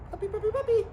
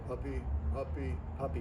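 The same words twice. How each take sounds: First: The words are quick, rhythmic and high-pitched. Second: The words are slow, flat and without rhythm. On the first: The speaker calls it right. "in a very quick cadence with a high pitch, uh, like I did" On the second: The speaker calls it wrong. "Don't say"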